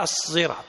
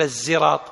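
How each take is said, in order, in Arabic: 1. يبدأ بصوت صاد مفخمة ثقيلة. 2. يبدأ بصوت زاي بسيط خفيف. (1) "بالصاد المشبعة الموصلة لمخرج الزاي ... هي الصراط هكذا" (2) "يعني ما يصير تقول الزراط، لا"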